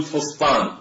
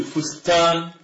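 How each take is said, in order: First: "فسطان" with a heavy ط in place of ت; light س, emphatic ط. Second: "فستان" as fus-taan, both consonants light. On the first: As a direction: make the second syllable of "فسطان" a dark ط. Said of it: "بدل من أن نقول فسطان". (نطق "فسطان" بطاء مفخمة) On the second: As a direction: keep "فستان" light, with plain س and ت. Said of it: "فأسهل على اللسان أن نقول". (نطق "فستان" بسين وتاء مرققتين) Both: Shown as a demonstration.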